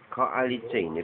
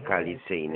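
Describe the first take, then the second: First: The 'o' after 'k' is clearly pronounced. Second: The 'o' after 'k' is swallowed. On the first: The speaker calls it right. "proszę powiedzieć to dokładnie" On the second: The speaker calls it wrong. "nie koalicyjny jakiś. A gdzie o?"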